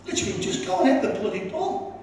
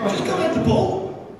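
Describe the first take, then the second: First: Said in the usual way. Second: "Just go and head the ball" thrown out much higher, like a barked order; mock angry order. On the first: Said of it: "I didn't say bloody". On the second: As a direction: give the command the way the manager yelled it. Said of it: "I didn't say bloody, by the way".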